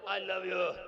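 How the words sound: It is said in an angry tone. The words sound fake, like a lie. The speaker calls it wrong. "गुस्से में बोले"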